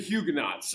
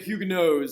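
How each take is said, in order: First: The final consonant sound is pronounced. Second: The final consonant sound is left silent.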